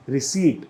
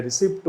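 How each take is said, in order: First: रिसीट said ri-SEET with a silent p and a long ee; correct pronunciation. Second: रिसिप्ट said ri-SIPT with the p sounded, the learner's mistake; common wrong pronunciation. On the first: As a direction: model word रिसीट, no p sound, stress on SEET. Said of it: "इसको बोला जाता है". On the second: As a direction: mimic the error रिसिप्ट, short i and a clear p. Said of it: "बहुत से लोग इसे रिसिप्ट बोलते हैं". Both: Shown as a demonstration.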